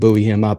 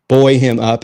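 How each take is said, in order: First: Buoy is said with an American pronunciation. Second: Buoy is said with a British pronunciation. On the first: The speaker calls it wrong. "I was counseled not to say buoy, the American version there" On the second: The speaker calls it right. "I got to say it right"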